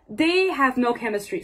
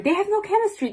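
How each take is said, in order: First: Said in the usual way. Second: Much higher, "no" punched hard; stress on no. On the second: Shown as a demonstration. Correcting her apology, she stresses "no". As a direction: insist that they have "no" chemistry. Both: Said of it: "No, not sorry".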